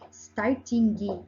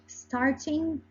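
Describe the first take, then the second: First: The word ends with an audible hard g. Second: The word ends without an audible g. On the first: The speaker calls it wrong. "like starting G. Oh no, we don't do that" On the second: The speaker calls it right. "we don't pronounce the G. We say starting"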